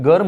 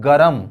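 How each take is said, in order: First: गर्म as one syllable, "garm"; R running straight into M in गर्म; standard pronunciation. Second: गरम in two syllables, "ga-ram"; village pronunciation. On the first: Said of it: "हालांकि वो गर्म होता है". (गर्म, र और म जोड़कर) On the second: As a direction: open vowel between R and M in गरम. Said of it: "गांव घर में कहते हैं गरम". (गरम, गांव वाला उच्चारण) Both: Shown as a demonstration.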